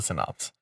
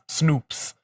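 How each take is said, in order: First: The name begins with a 'sin' sound. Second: The name begins with a 'snoo' sound. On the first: This is how the owner says it. The speaker calls it right. "at least I pronounce it Synops" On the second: Other players misread the name. The speaker calls it wrong. "people would just forget I guess forget the Y and it was just Snoops"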